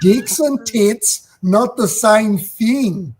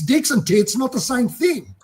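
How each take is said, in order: First: It is said very slowly and deliberately. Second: It is said at normal conversational speed.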